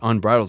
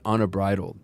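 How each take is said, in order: First: The word is said with three syllables. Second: The word is said with four syllables. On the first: The speaker calls it right. "So I guess it's unbridled" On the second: The speaker calls it wrong. "It's not unabridled"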